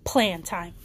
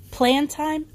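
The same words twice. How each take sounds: First: PLAN TIME lower, falling to a settled statement; agreeing. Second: PLAN TIME higher with a rising question tune. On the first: Rapunzel confirms the scheme to Flynn, agreeing. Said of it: "Rapunzel agreed". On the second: Flynn checks the scheme with Rapunzel, questioning. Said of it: "asked Flynn". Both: A narrator's reading.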